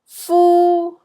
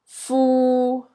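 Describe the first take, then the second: First: The syllable is said in Cantonese tone one. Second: The syllable is said in Cantonese tone three. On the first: "C is tone one" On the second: "And D is tone three"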